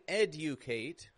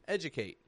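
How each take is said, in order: First: The D and U are said as separate sounds. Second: The D and U blend into a J sound. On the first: The speaker calls it wrong. "I'm not saying educate" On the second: The speaker calls it right. "blend together like J"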